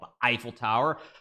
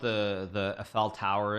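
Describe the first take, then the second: First: It is said with an American pronunciation. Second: It is said with a European-style pronunciation. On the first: "Unlike us Americans who call it" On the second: "if I'm going to pronounce it correctly"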